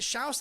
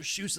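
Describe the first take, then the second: First: The name rhymes with house. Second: The name rhymes with shoes. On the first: "shouse in the house" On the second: "or shoes in the house"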